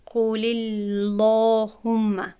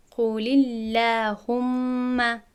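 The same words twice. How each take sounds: First: قول اللهم with the lam made heavy and full, the error; wrong heavy lam. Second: قول اللهم with a light lam, slow; correct light lam. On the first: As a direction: say اللهم with a thick, backed lam to show the mistake. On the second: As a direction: recite اللهم slowly with a thin, forward lam. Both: Shown as a demonstration.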